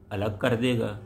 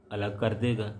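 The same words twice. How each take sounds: The two takes are said the same way.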